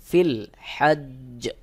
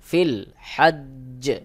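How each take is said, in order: The two takes are said the same way.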